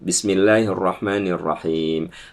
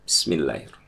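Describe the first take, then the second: First: It is recited aloud. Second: It is recited quietly.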